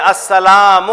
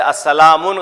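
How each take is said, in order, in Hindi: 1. शब्द स्वर पर खत्म होता है, n नहीं है। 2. शब्द के अंत में n की ध्वनि जुड़ी है।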